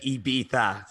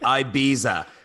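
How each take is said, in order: First: The last syllable has a th sound. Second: The last syllable has no th sound. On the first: The speaker calls it right. "E B for like a like a bumblebee, and then tha" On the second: The speaker calls it wrong. "I said it wrong for so many years"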